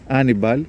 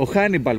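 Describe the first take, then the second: First: The name begins directly with a vowel. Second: The name begins with an h sound. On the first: The speaker calls it right. "Το χ δεν προφέρεται" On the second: The speaker calls it wrong. "Ο Χάνιμπαλ που λέμε εμείς, που λένε οι ξένοι"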